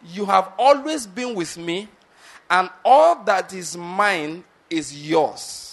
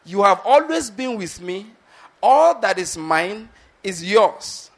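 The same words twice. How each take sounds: First: Always and all drawn out, very slow; slow emphasis. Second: Louder, slow, always and all stretched; emphasis on always and all. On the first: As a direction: lean slowly on always and all. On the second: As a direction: drive home always and all, slowly. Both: Shown as a demonstration. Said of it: "that's my emphasis again".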